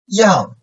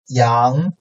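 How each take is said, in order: First: The pitch falls sharply from high to low. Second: The pitch rises from mid to high.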